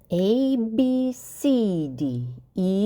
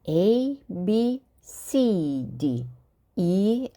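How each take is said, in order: First: The letters are said at a faster pace. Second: The letters are said at a normal pace.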